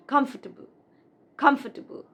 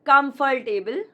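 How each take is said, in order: First: "comfortable" as KUMF-tuh-bul; correct comfortable. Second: "comfortable" as kum-fol-TAY-bul, rising; mispronounced comfortable. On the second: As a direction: say TABLE inside "comfortable". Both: Shown as a demonstration. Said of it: "It's not".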